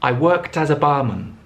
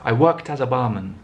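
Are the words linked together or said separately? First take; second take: linked; linked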